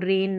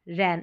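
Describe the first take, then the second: First: The vowel is a mid 'e' sound. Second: The vowel is an open 'a' sound. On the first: The speaker calls it wrong. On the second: The speaker calls it right.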